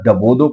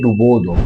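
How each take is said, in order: First: The first vowel is an a sound. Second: The first vowel is a u sound. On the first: The speaker calls it wrong. "बाद डबोदो पढ़ते हैं" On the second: The speaker calls it right. "ये सही लफ्ज़ है"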